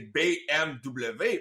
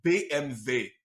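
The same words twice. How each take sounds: First: The letter names are said the French way. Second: The letter names are said the German way. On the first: The speaker calls it wrong. "il faudrait pas le prononcer B M W parce que c'est pas du français" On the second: The speaker calls it right. "il faudrait le prononcer B M W ... à l'allemande"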